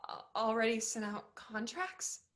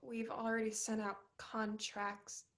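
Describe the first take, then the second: First: "already" repeated in shocked disbelief; stunned disbelief. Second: Said in the usual way. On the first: Acted. Molly rereading the rejection email in disbelief. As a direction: repeat "already" as if you can't believe it.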